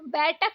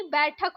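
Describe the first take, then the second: First: बैठक with plain t, "baitak"; no puff in middle of बैठक; wrong pronunciation. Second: बैठक with aspirated th, "baithak"; breath puff in middle of बैठक; correct pronunciation. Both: Shown as a demonstration. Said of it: "बैठक नहीं".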